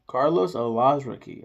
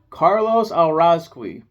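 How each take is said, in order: First: The surname is said as 'A-laz-ra-kee'. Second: The surname is said as 'Al-raz-kee'. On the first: The speaker calls it right. "wow, that's crazy" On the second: The speaker calls it wrong. "I've been saying Alrazqui this whole time"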